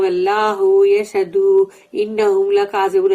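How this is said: It is said in a calm, casual tone.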